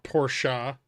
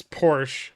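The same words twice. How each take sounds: First: Porsche as "POR-sha"; two-syllable pronunciation. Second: Porsche as "porsh", no final vowel; one-syllable pronunciation. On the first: Streamer rejecting the other way, Porsche said as "por-sha". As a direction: add an "uh" to the end of Porsche. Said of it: "It's Porsche". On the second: Streamer insisting on a pronunciation, Porsche as one syllable "porsh". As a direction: end Porsche on the sh. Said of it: "Not Porsche". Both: Shown as a demonstration.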